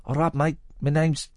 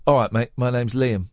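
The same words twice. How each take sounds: First: Second go at the singer's greeting, without the Cockney. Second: A light, accidental Cockney; Cockney accent. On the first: Host corrects his impression of a singer's greeting, lightly voiced. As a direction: lightly imitate a rock singer saying hello. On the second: Host retells a singer introducing himself, light Cockney accent. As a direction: lightly imitate a rock singer with Cockney vowels. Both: Retold or imitated. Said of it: "He didn't do it in a Cockney accent".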